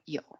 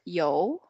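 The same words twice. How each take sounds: First: The pitch goes down on the syllable. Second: The pitch goes up on the syllable. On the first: "and then you go down" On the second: "And then you go up"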